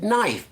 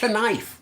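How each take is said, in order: First: The word begins with an N sound. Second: The word begins with a K sound. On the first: "We say we pronounce it knife" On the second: "we should actually be pronouncing it knife"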